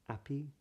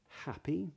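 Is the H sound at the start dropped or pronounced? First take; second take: dropped; pronounced. First: It starts straight on the vowel, no H. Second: It starts with a breathy H sound. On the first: "people that don't do that would make those words sound more like appy" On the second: "the H is pronounced"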